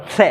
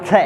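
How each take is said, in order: First: से said as retroflex ष, tongue tip curled back. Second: से said as dental स, tongue against the teeth. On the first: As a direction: say से as ष with the tongue on the roof. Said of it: "फिर उसका उच्चारण करो". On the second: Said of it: "फिर उच्चारण करो". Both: Shown as a demonstration.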